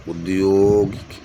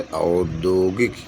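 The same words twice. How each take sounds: First: उद्योगिक drawn out slowly, opening on short u; wrong form read out. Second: औद्योगिक drawn out, opening on au; slow model reading with au at the start; correct pronunciation. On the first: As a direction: say उद्योगिक as a slow "ud-yo-gik". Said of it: "शुद्ध है". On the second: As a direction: say औद्योगिक slowly as "au-dyo-gik". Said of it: "औद्योगिक शुद्ध है". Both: Shown as a demonstration.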